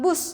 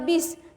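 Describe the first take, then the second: First: The word is said with a 'u' vowel. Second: The word is said with an 'i' vowel. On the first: This is the standard form. The speaker calls it right. "bus itu adalah kata baku" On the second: This is the informal everyday form. The speaker calls it wrong. "Kata yang tidak bakunya adalah bis"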